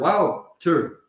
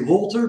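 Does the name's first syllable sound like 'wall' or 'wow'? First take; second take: wow; wall. First: The first syllable sounds like 'wow'. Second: The first syllable sounds like 'wall'. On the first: The speaker calls it right. "but it's wow. It's like you say wow, and then Wouter" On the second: The speaker calls it wrong. "Mostly they say Walter"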